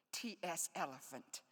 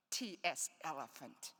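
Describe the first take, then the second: First: "T" hit hardest, falling after "S elephant"; stress on T. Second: "S" hit hardest in "T S elephant", then falling; stress on S. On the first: Poet to audience, stressing "T" in "T S elephant". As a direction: lean on the letter "T" in "T S elephant". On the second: Poet to audience, stressing "S" in "T S elephant". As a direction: lean on the letter "S" this time. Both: Shown as a demonstration. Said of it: "that's a nerdy poet joke".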